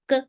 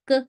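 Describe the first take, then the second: The two takes are said the same way.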